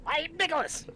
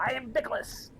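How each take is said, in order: First: Very high, pinched nose voice; nasal voice. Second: Nicholas voice. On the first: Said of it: "holding my nose like this". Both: Pretend.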